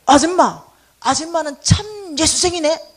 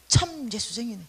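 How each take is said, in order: First: Very loud slow call. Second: Said in the usual way. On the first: Retold or imitated. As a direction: shout it out slowly across the street. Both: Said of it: "이러는 거야".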